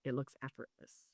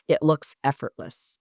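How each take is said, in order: First: "It looks effortless" repeated almost under the breath; the podcaster echoes the point to listeners, barely audible; near-whispered echo. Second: "it looks effortless" said slowly, weight on "it"; the podcaster spells out to listeners that it only looks effortless, slow and weighted; slow emphasis. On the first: Drop to a hushed aside for "It looks effortless". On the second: Lean on "it" and let "looks effortless" land slowly. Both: Shown as a demonstration.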